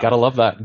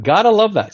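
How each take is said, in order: First: Said in the usual way. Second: Higher and louder, gleeful; a bright enthusiastic echo of his own line; excited repeat. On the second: Real, not acted. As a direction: punch it up the second time with real delight. Repeating the phrase for emphasis.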